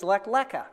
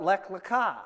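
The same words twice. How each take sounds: First: "Lecha" stressed on the first syllable, LEH-kha; stress shifted forward. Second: "Lecha" stressed on the end, le-KHA; accent on last syllable. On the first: Explaining to congregation how Nate says the portion, accent on LEH. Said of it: "he would say". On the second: Showing congregation own pronunciation, accent on final KHA. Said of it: "where we put the accent". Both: Shown as a demonstration.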